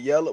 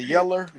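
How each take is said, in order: First: The word ends with an 'oh' sound. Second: The word ends with an 'er' sound. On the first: "all that they be saying yellow" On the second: "It's a yeller"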